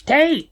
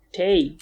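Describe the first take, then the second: First: High-pitched burst on a single word; insistent cry. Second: Said in the usual way. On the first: Real, not acted. Repeats disputed word more forcefully.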